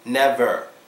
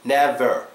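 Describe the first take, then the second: No difference in how they are said.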